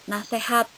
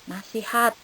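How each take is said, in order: No difference in how they are said.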